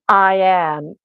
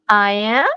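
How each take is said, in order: First: It is said as a flat statement. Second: It is said as a puzzled question.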